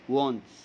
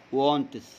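Both takes have the same delivery.

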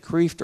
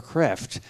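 First: "Kreeft" with a long ee; first option, "Kreeft" with a drawn ee vowel; long-vowel name pronunciation. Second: "Kreft" with a short e; second option, "Kreft" with the vowel of "bed"; short-vowel name pronunciation. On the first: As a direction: say "Kreeft" to rhyme with "reefed". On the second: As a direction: say "Kreft" to rhyme with "left". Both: Shown as a demonstration. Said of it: "how to pronounce my name".

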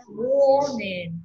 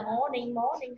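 First: "morning" slow, MOR held long, NING falling away; corrected "morning". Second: "morning" quick and soft, first vowel short; throwaway mistaken "morning", no long OR; wrong short "morning". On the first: Teacher giving the right version, long-drawn "morning". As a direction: stretch the first vowel of "morning". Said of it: "không phải là morning, morning đâu nha". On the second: Teacher warning learners off it, short soft "morning". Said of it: "không phải là morning". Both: Shown as a demonstration.

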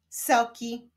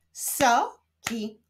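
First: Said in the usual way. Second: SO, pause, KI; syllable by syllable. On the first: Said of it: "Powstaną z nich wyrazy". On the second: Shown as a demonstration. Teacher leading reading practice, So-ki split apart. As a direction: say "Soki" in two separate pieces. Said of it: "łączmy sylaby".

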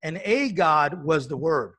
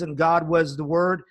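First: Slower, "a" in "a God" given the weight; stress on a. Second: Said in the usual way. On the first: Retold or imitated. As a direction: punch the "a" in "and a God". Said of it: "he puts a capital G to small g". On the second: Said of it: "where it says".

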